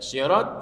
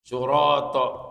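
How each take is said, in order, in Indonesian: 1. Vokal pertama adalah bunyi i. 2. Vokal pertama adalah bunyi u.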